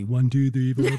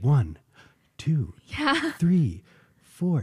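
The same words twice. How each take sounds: First: The numbers are counted flatly, like a tally. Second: The numbers are counted with shape and direction. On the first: The count is just a list of beats. The speaker calls it wrong. "it's not just a tally" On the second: The count builds toward somewhere. The speaker calls it right. "but it has shape. It's going somewhere"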